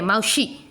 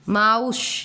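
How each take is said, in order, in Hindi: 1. शब्द का अंत एक जुड़ी हुई स्वर ध्वनि से होता है। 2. शब्द का अंत s ध्वनि पर होता है।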